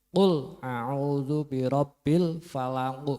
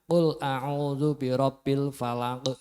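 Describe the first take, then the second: First: The final q bounces with rounded lips. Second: The final q bounces with unrounded lips. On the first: The speaker calls it right. "itu bibirnya moncong" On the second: The speaker calls it wrong. "jangan ... itu berarti belum pas"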